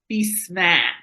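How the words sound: It is said in a New England accent.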